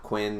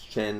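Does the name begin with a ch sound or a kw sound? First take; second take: kw; ch. First: The name begins with a kw sound. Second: The name begins with a ch sound. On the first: The speaker calls it wrong. "it's not Quinn" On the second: The speaker calls it right. "it makes a ch sound"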